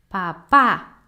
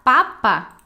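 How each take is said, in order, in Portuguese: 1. A tônica está na última sílaba. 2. A tônica está na primeira sílaba. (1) "o acento está aqui" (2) "se você falar papa assim"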